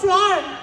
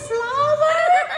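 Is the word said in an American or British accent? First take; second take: British; American. First: The word is said in a British accent. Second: The word is said in an American accent. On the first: The shop assistant did not understand it. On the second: The shop assistant finally understood it.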